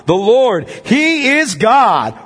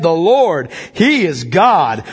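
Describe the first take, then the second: First: Higher, very slow triumphant cry; rising exultant proclamation. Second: Slow, firm declaration; crowd's proclamation. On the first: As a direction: lift it to an ecstatic peak. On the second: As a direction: proclaim it with steady awe. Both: Acted. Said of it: "fell on their faces and said".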